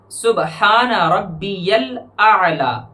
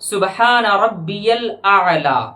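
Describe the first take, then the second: The two takes are said the same way.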